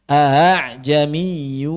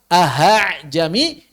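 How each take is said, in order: First: The second glottal catch is softened, half-voiced. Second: An h sound is inserted between the vowels. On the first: This is the recommended transmitted reading. The speaker calls it right. "Kalau sudah bisa ya diamalkan dong" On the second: This is a clear error that changes the word. The speaker calls it wrong. "Tapi kalau berubah menjadi ha, ... ini lahan jali"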